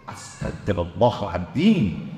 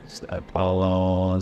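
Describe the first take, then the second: First: It is said in an annoyed, emotional tone. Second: It is said in a calm, sincere tone.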